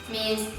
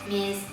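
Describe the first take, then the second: No difference in how they are said.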